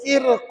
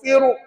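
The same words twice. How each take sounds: First: The r is pronounced light and thin. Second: The r is pronounced heavy and full-mouthed. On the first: "saya baca nipis" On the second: "Kalau saya berhenti dengan tebal, begini bacaannya"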